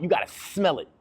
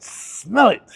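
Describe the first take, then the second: First: Said in the usual way. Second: "Smell it" punched higher and louder, hit on "Smell"; emphatic, high and loud. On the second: Shown as a demonstration. Telling viewers to chase their goal, "Smell" hit high and loud. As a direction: really lean into "Smell it". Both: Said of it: "Smell it like that".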